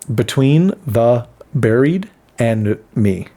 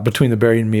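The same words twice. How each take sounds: First: It is said slowly and carefully. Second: It is said at a fast, normal pace.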